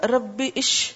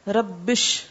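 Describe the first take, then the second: First: The words are split with a separate 'ish'. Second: The words run together with no extra vowel. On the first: The speaker calls it wrong. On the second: The speaker calls it right.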